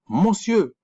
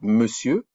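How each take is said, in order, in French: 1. Il se prononce lettre par lettre, comme il s'écrit. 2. Il se prononce de la manière habituelle, au quotidien. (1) "si on prononçait la même manière que c'était écrit" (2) "parce que vous dites monsieur"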